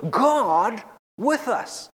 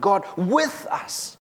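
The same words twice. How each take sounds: First: "God" leaned on, slow and drawn out; "God with us" with the weight on "God"; stress on GOD. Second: "with" lifted, slow, rising at the end; "God with us" with the weight on "with"; stress on WITH. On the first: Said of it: "put the emphasis in different places". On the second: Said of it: "if we change the emphasis". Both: Shown as a demonstration.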